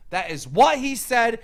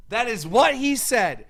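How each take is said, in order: Both takes have the same delivery.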